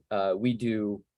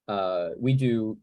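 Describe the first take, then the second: No difference in how they are said.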